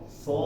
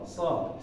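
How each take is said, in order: First: The tongue back is raised, giving a heavy sound. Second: The tongue is relaxed, giving a light sound. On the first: The speaker calls it right. "kalau kita kasih ini tegangan sedikit di belakangnya, agak naik sedikit" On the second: The speaker calls it wrong. "kalau lidahnya dibiarin aja, nggak nyantai atau nyantai keadaan lidahnya nggak tegang, maka dibaca so"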